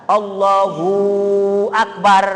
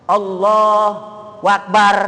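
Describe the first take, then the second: Both takes have the same delivery.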